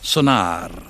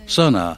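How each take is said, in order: First: The word is said with a Spanish pronunciation. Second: The word is said with an English pronunciation.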